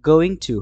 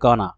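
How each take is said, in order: First: Both words are said separately and fully. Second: The words merge into one reduced word.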